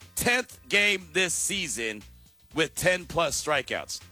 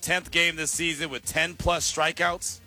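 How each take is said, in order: First: It is said slowly. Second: It is said at normal speed.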